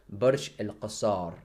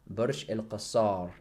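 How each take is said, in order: No difference in how they are said.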